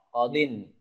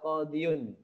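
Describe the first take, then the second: First: The y sound is dropped, ending in -in. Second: The word keeps the y sound before -un. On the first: The speaker calls it right. "Kita harus membuang ya-nya biar nggak nggak berat" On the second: The speaker calls it wrong. "Qadiyun itu kan berat"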